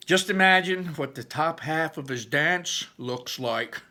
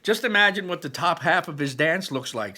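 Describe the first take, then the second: First: Slow, higher, lightly voiced older brother; Barley's voice. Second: Higher and louder teasing brother; Barley's voice. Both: A narrator's reading. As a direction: tease about the dance. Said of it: "that was Barley's voice".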